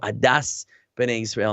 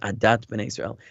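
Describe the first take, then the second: First: The first word ends in an S sound. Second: The first word ends in a T sound. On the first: "Last week I would have said"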